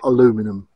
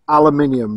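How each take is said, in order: First: The word has an American-style pronunciation. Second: The word has a British-style pronunciation. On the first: The speaker calls it wrong. "not aluminium. We're not American" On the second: The speaker calls it right. "I've got to make a point here that it's aluminium"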